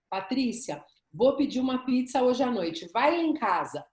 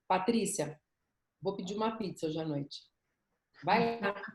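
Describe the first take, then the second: First: The invitation sounds eager and sincere. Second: The invitation sounds reluctant and perfunctory.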